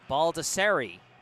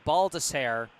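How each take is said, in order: First: The name ends with a final 'ee' sound. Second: The name ends without a final 'ee' sound. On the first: The speaker calls it right. "they are pronounced with an E at the end" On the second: The speaker calls it wrong. "I've been saying"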